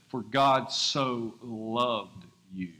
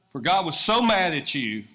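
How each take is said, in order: First: Very slow, tender "For God so loved you"; slow reverent quote, "God" drawn out; correct slow reading. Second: "mad" stressed, louder mock scolding; punchy wrong reading with "mad" hit hard; mock wrong version. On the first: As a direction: let every word land slowly. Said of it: "It says". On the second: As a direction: misquote it with a mock glare. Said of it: "That's not what it says". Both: Shown as a demonstration.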